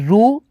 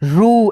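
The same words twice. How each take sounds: First: The vowel is short, not drawn out. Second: The vowel is long and drawn out. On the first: "यहाँ पे simple उच्चारण करना होगा, आपको खींचना नहीं होगा" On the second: "ऊ की मात्रा मिलाएंगे लेकिन थोड़ा खींचेंगे"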